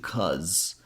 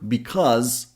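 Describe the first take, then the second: First: The word is shortened to one syllable. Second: The word is said in full, two syllables.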